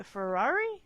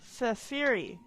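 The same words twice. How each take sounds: First: Unsure attempt at Ferrari; mispronounced name. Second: "Fafiri" with an EE middle; corrected name attempt. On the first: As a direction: try "Ferrari" with an AR middle. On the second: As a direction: sound out "Fafiri" as fa-FEE-ree. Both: Real, not acted. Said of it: "No, I'm saying that wrong".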